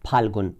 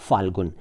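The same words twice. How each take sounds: First: It begins with an aspirated p sound. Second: It begins with an f sound. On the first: The speaker calls it right. "जबकि फ होना चाहिए" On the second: The speaker calls it wrong. "लोग उसको फ कहते हैं, जो कि गलत है"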